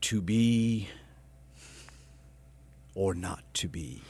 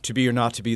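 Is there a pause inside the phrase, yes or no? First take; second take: yes; no. First: It is said with a pause inside. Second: It is said straight through without a pause.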